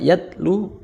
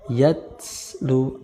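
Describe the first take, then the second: First: The consonant is a plain t sound. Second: The consonant is a breathy th sound. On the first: The speaker calls it wrong. "kurang tepat" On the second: The speaker calls it right. "yang benar"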